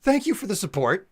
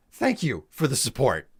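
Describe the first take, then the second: First: Sing-song thanks. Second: Said in the usual way. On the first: Real, not acted.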